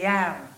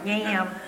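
First: The vowel is said with a flat A. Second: The vowel is said without a flat A. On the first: The speaker calls it right. "Louisiana A's are flat, and they say yam" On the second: The speaker calls it wrong. "as I would say yam or yam"

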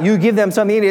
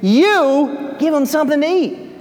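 First: The word you is not stressed. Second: The word you is strongly stressed.

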